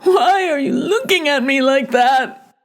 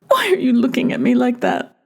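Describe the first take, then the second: First: It is screamed out loud. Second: It is said quietly, without shouting.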